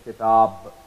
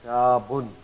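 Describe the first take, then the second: First: The word ends without an n sound. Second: The word ends with an n sound. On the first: The reader stops on this word. "if you happen to stop here, you will say kitab" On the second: The word is read without stopping on it. "Now we will pronounce the sakin noon at the end of the word"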